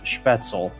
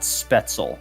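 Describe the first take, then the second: First: The word is said with German pronunciation. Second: The word is said with an Americanized pronunciation. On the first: The speaker calls it right. "one of about four Americans who who actually pronounces it uh, Spätzle" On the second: The speaker calls it wrong. "and not Spetzel"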